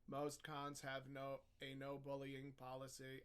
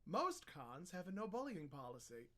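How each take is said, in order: First: It is read in a flat monotone. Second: It is read with natural, lively expression. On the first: "let's talk in monotone" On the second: "If you're reading it like a human"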